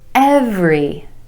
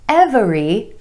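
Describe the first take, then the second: First: The word is said with two syllables. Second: The word is said with three syllables. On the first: The speaker calls it right. "Two syllables, emphasis on the first syllable" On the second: The speaker calls it wrong. "not every"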